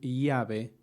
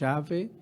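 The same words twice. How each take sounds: First: The ll is said the general Argentine way. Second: The ll is said the Buenos Aires way. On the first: This is how people outside Buenos Aires say it. "en vez de decir llave" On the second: This is how Buenos Aires natives say it. "pronunciamos llave"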